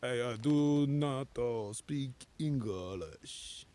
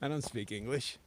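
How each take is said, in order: First: It is said in a bad fake foreign accent. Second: It is said in his natural accent.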